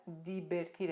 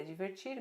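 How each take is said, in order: First: First "divertir" as di-ber-TIR; Spanish pronunciation. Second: Second "divertir" as dji-ver-TCHIR; Portuguese pronunciation. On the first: Teacher reads the Spanish verb, "divertir" as di-ber-TIR. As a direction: say "divertir" with b for v and hard d and t. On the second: Teacher translates for students, "divertir" in Brazilian Portuguese. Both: Shown as a demonstration. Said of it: "divertir é divertir".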